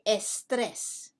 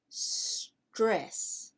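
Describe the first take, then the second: First: An extra e vowel comes before the s. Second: The word starts directly with the s sound. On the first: The speaker calls it wrong. "We don't say estrés" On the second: The speaker calls it right. "we say stress"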